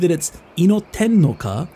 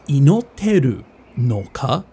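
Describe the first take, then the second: First: The verb ending is clipped to 'ten'. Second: The verb ending is the full 'teru'. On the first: It is casual slang speech. "the ten is actually short kind of slang for teru or teiru" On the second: It is the standard full form. "So this is actually Inoteru no ka"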